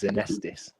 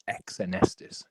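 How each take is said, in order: First: The word begins with a plain z sound. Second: The word begins with an added eks sound. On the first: The speaker calls it right. "the way you pronounce it is Zenestis" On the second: The speaker calls it wrong. "how a friend of mine used to pronounce it"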